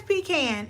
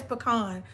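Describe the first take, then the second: First: Pecan said PEE-can, long ee, vowel of "can". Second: Pecan said puh-KAHN, short first syllable, open ah. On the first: Polling the viewers, pecan said PEE-can. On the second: Polling the viewers, pecan said puh-KAHN. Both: Shown as a demonstration. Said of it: "who says pecan and who says pecan".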